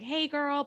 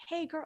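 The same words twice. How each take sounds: First: Very high-pitched. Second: Put-on a high, squeaky hey girl; shrill hey girl. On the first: Showing the grating friend's greeting, high and shrill. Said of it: "really very high-pitched". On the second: Mocking shrill friends to listeners, high squeak. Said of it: "shrillness to the voice". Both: Shown as a demonstration.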